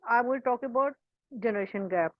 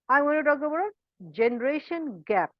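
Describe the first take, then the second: First: The pitch stays flat with no stress. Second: The pitch varies with stress on key words. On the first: The speaker calls it wrong. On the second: The speaker calls it right.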